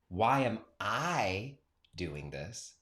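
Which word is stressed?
I. The stress is on the word I.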